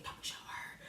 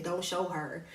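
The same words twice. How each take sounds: First: Hushed, voiceless whisper. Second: Said in the usual way. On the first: Retold or imitated. Classmate in the back warns another not to help, whispering. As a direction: whisper it secretively from behind. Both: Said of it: "like, whispering".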